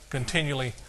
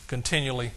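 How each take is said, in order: Both takes have the same delivery.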